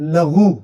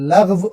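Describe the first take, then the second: First: The word ends with a long oo vowel. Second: The word ends with a v sound. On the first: The speaker calls it wrong. "बाज़ लोग लग़व को बोलते हैं लग़ू" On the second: The speaker calls it right. "लग़व होता है"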